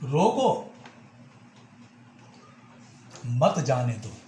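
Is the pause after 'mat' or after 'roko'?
after roko. There is a pause right after 'roko'. Stop the person; do not let them go. "रो को मत जाने दो यानी उस व्यक्ति को रोकिए, उसे जाने मत दीजिए"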